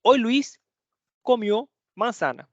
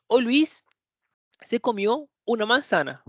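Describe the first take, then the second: First: Said as an example, a little higher; plain example sentence. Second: A slightly lifted example line; example with the pronoun. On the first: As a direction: read the sample sentence clearly. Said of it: "vou te dar um exemplo". (frase de exemplo dita com clareza) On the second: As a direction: present the pronominal version. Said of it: "o verbo pronominal". (exemplo com o verbo pronominal) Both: Shown as a demonstration.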